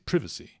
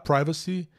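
First: It uses the British-style vowel in the first syllable. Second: It uses the common American-style vowel in the first syllable. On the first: "Eles falam Privacy" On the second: "é a pronúncia mais corrente"

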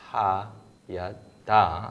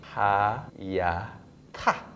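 First: The last syllable starts with a soft d sound. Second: The last syllable starts with an aspirated t sound. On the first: "let's say ha, ya, da" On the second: "it turns out to be ha, ya, ta in terms of pronunciation"

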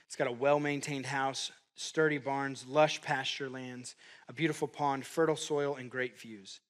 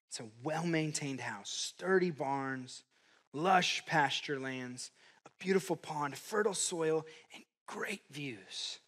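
First: The list is read at normal speed. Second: The list is read very slowly.

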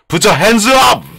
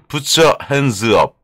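First: It is shouted loudly with high energy. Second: It is said at a normal speaking volume.

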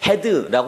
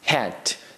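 First: It is said Korean-style with a vowel after d. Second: It is said American-style ending on a devoiced d. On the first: The speaker calls it wrong. "우리나라 사람처럼 헤드라고 하지 않죠" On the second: The speaker calls it right. "미국 사람들은"

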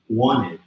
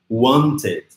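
First: The t after the n is dropped. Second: The t after the n is clearly pronounced. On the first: The speaker calls it right. "A gente vai falar wanted, aqui vira um izinho" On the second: The speaker calls it wrong. "aqui não é wanted"

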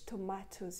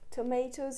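First: It is said with a British English accent. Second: It is said with an American English accent. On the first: "tomatoes in British English" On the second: "Tomatoes in American English"

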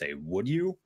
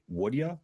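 First: The word 'you' is said fully and clearly. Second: The word 'you' is reduced to a quick 'ya'. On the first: It is the formal way of saying it. "more of a formal way of stating it" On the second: It is a casual way that rolls off the tongue. "I would also say, would ya? Instead"

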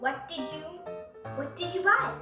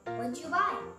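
First: Each word of 'what did you' is said clearly. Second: 'What did you' is blended into one short reduced form. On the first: "I think I would say" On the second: "Also known as"

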